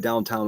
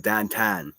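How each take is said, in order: First: It is said in a standard accent. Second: It is said in a Pittsburgh accent. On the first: This is how other people say it. "we don't say downtown" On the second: This is how locals say it. "We say downtown"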